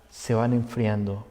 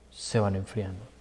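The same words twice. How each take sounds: First: Softer, lower, slower; cooling off. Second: Much softer and lower, dying out; fading away. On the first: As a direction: let the voice go cold. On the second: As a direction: let it fade to almost nothing. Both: Shown as a demonstration.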